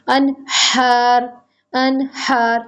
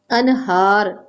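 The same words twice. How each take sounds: First: अनहार with a hard throat ह; guttural ह in अनहार; throaty ह. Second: अनहार with a soft breathy ह from the chest; gentle ह in अनहार. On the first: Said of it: "बहुत अच्छा करके गले से पढ़ें". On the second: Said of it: "ठंडी हा जो आपके सीने से". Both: Shown as a demonstration.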